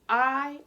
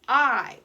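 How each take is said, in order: First: A long vowel, as at the start of 'ice'. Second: The same.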